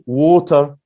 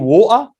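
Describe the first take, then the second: First: It is said in a careful dictionary pronunciation. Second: It is said in a Birmingham accent. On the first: "the exact as the dictionary water" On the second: "someone from Birmingham say water"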